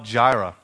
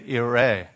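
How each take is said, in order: First: The word begins with a J sound. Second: The word begins with a Y sound.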